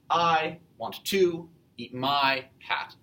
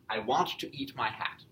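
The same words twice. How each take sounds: First: The first, third and fifth words carry stress. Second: Every second word carries the stress. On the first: The speaker calls it wrong. "it does not flow as usually English language should" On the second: The speaker calls it right. "every second syllable the stressed one"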